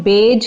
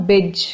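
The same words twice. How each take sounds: First: बेज said with a long "ay" vowel; wrong ending. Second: बिज said with a short "i"; short, light "ij" vowel in बिज; correct ending. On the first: Teacher warns against this ending, बेज with an "ay" sound. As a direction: say बेज to rhyme with "age". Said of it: "बेज की sound नहीं आनी चाहिए". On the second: Teacher models how garbage should end, बिज with short "i". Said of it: "it should sound बिज". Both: Shown as a demonstration.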